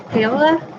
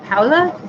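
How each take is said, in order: First: Paola said as PAY-luh, first vowel like "ay"; trying the name again. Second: Paola said as POW-luh, first vowel like "ow"; trying the name. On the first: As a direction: say Paola with "ay" in the first syllable, questioning rise. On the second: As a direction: say Paola with "ow" in the first syllable, questioning rise. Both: Shown as a demonstration. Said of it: "I always pronounce her name wrong".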